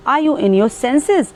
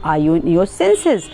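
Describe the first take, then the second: First: A bit angry. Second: Said in the usual way. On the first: Shown as a demonstration. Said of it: "थोड़ा सा आप गुस्से में हैं तो". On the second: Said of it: "It means है कि तुमने अभी जो बोला".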